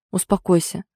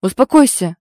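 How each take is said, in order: First: Steady, level soothing; calm reassurance. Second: Loud, sharp order to calm down; growled command. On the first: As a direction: settle him down gently. Egor calming his brother. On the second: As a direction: bark it to stop her hitting. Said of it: "рыкнул на неё". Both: Acted.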